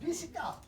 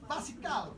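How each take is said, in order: First: The first vowel is an 'i' sound. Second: The first vowel is an open 'a' sound. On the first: This follows the English form of the word. "Nak sebut macam mana? Bisikal" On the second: This is the long-established everyday pronunciation. "Dari dulu orang sebut basikal"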